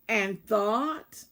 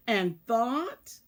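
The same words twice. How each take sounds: The two takes are said the same way.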